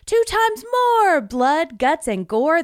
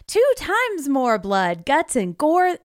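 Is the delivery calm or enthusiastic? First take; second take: enthusiastic; calm. First: It is read with much more energy. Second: It is read with moderate energy. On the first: The speaker calls it right. "I'm sorry, that was not enough gusto" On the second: The speaker calls it wrong. "I got to read this with gusto"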